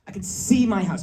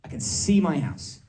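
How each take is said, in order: First: Acted desperation, higher pitch; desperate. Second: Said in the usual way. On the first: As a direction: plead it as if desperate to get home. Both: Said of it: "I'm, like, desperate".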